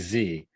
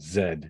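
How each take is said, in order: First: The letter is said the American way. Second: The letter is said the British way.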